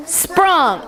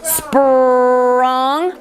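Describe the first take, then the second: First: Said in the usual way. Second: Sprung drawn out slowly; stretched word. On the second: Shown as a demonstration. Teacher stretching a word for the class. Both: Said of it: "we're gonna stretch these words".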